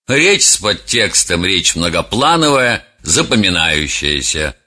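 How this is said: The voice sounds dismissive and disdainful. The speaker does not care about the listeners. "Человек, который относится с пренебрежением к слушателям"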